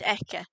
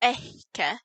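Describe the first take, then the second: First: The consonant has no puff of air before it. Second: A small puff of air comes before the consonant. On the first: It means at him. "which isn't pre-aspirated" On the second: It means at her. "which is pre-aspirated"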